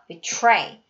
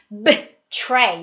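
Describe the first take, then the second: First: The first syllable is barely voiced, mostly mouthed. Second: The first syllable is fully voiced. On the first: The speaker calls it right. "그냥 입모양만 해주세요" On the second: The speaker calls it wrong. "betray 이러지 않는다는 얘기예요"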